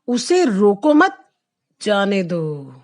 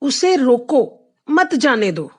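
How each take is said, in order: First: The pause falls right after 'mat'. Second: The pause falls right after 'roko'. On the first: Do not stop the person; let them go. "मैंने कॉमे की जगह बदली है" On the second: Stop the person; do not let them go. "उसे रोक लो, उसे जाने नहीं देना"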